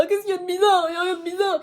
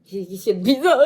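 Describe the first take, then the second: First: High, loud put-on voice; high defensive put-on voice; mock defensive voice. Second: Said in the usual way. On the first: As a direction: squeak it back defensively in a character voice. Repeats question in another voice. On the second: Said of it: "repeated question".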